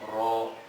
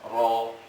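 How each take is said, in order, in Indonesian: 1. Suara r itu tebal. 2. Suara r itu tebal.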